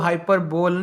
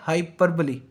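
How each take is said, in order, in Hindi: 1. यह 'bole' पर खत्म होता है, जिसमें तीन अक्षर हैं। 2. यह 'bolee' पर खत्म होता है, जिसमें चार अक्षर हैं। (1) "इसको हाइपरबोल नहीं पढ़ना" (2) "इसका जो करेक्ट प्रोनाउंसिएशन है"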